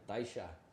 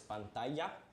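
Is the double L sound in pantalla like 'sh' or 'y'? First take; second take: sh; y. First: The double L sounds like sh. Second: The double L sounds like a y. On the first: "in Argentina, ... that double L becomes a sh sound" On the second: "it's a double L, so it makes a Y sound in Castellano"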